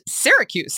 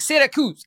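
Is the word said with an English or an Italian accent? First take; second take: English; Italian. First: It is said with a plain English accent. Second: It is said with an Italian accent. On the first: The speaker calls it right. "Syracuse is pronounced Syracuse" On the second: The speaker calls it wrong. "Why am I putting it in an Italian accent?"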